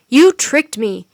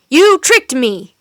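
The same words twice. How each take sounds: First: Much louder angry accusation; furious cry. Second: Louder still and dragged out slowly; slower furious cry. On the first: Wizard cries at the children who tricked him. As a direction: throw the blame at them. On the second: Wizard repeats his cry, slower and more furious. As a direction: lean hard on every word of blame. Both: A narrator's reading. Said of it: "cried the wizard".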